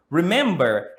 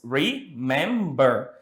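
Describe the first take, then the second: First: Said in the usual way. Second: "Remember" slowly split into re, mem, ber; syllable by syllable. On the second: Shown as a demonstration. Teacher counting out three syllables for students, "Remember" slowly split. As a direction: break "Remember" into three separate beats. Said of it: "has three syllables".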